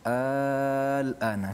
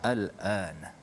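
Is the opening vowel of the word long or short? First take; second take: long; short. First: The opening vowel is drawn out long. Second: The opening vowel is kept short. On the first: It is asked as a question. "dia panjang al-ana kerana di situ ada hamzah istifham" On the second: It simply means now. "kita baca pendek sajalah"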